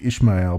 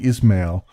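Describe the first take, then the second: First: The middle consonant is pronounced as 'sh'. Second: The middle consonant is pronounced as 's'. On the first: The speaker calls it wrong. "every time I look at it, I want to say Ishmael, but it's not" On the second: The speaker calls it right. "There's no H in there"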